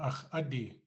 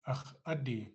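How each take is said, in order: No difference in how they are said.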